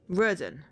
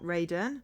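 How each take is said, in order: First: The name begins with a short 'rud' sound. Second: The name begins with a long 'raid' sound. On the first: The speaker calls it right. "not Raiden" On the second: The speaker calls it wrong. "I think I said Raden"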